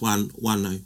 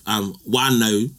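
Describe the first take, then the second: First: The word is said softly without a glottal catch. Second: The word is said with a glottal catch. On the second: "instead of wano"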